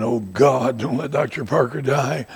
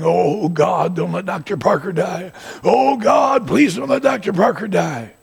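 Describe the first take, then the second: First: Said in the usual way. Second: High, loud, desperate pleading; congregation's loud pleading prayer; pleading prayer cry. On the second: Retold or imitated. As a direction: cry out to God for his life.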